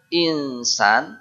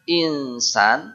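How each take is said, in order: First: The n blurs smoothly into the s. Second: The n blurs smoothly into the s.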